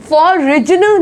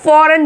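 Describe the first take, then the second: First: फॉरेन drawn out as "for-rij-n"; wrong pronunciation. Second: फॉरेन with silent g, "foren"; correct pronunciation. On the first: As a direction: sound the g in फॉरेन as j. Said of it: "फॉरेन नहीं बोला जाता है". (फॉरेन में "ज" की आवाज़ डालकर) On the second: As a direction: say फॉरेन with no j sound. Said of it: "फॉरेन बोलेंगे". (फॉरेन में "जी" silent) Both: Shown as a demonstration.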